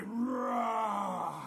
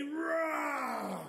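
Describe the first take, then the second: First: Long "roar" with more force; drawn-out, falling dinosaur roar; bigger dinosaur roar. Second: Long, falling "roar"; first, smaller dinosaur roar. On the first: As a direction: give ROAR everything, like a big dinosaur. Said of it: "Sometimes you need a bigger roar". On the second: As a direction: draw out ROAR like a playful dinosaur. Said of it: "gonna need a bigger roar". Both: Shown as a demonstration.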